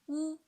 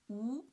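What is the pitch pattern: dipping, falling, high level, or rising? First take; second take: high level; rising. First: The pitch stays high and level. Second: The pitch rises from middle to high. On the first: "The first tone" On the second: "the second tone, from three to five"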